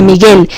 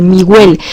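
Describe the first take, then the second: First: Said in the usual way. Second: Miguel with the u sounded, like mi-gwel; student mispronunciation. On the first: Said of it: "en lugar de Miguel". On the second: Retold or imitated. Teacher imitating learners who say Miguel with a gw. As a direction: say Miguel wrongly, pronouncing the gu as gw. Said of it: "dicen Miguel ... en lugar de Miguel".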